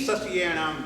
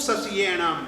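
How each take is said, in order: Both takes have the same delivery.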